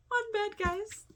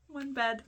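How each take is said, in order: First: High, squealing delight; thrilled squeal. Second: Said in the usual way. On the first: Real, not acted. Telling viewers about the one-bed scene, thrilled squeal. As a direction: squeal it like the best news ever.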